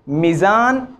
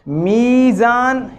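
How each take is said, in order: First: The vowel after the first consonant is cut short. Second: The vowel after the first consonant is held long. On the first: The speaker calls it wrong. "या को नहीं पढ़ा" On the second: The speaker calls it right. "या को पढ़ा है"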